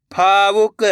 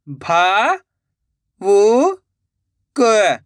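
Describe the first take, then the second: First: Said in the usual way. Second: भा, वु, क each standing alone; syllable by syllable. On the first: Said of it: "direct मात्रा का उच्चारण करके पढ़ेंगे". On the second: Shown as a demonstration. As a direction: sound out भा, वु, क with pauses. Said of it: "एक एक अक्षर का उच्चारण करके". (भा, वु, क एक-एक अक्षर रुक-रुक कर)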